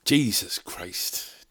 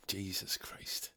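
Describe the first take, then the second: First: Slow, drawn-out weary groan of words; slow exasperation. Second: Whispered under the breath, softer and slow. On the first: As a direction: let the exasperation stretch out. Exasperated at travel hassle. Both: Real, not acted.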